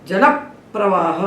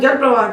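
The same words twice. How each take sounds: First: The p sound is doubled, lengthening the first syllable. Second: The p sound is single, with no lengthening. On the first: The speaker calls it right. "उच्चारण में हमको दो पा सुनाई पड़ेंगे" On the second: The speaker calls it wrong. "Hindi में हम जल प्रवाह कहते हैं, इसीलिए भटकते रहते हैं"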